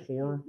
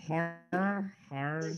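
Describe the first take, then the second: First: "horror" said as "hor"; "horror" as a single short "hor"; checking pronunciation. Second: "horror" drawn out slowly as "har"; "horror" stretched and repeated as "har"; practicing pronunciation. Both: Shown as a demonstration. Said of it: "did I say horror?".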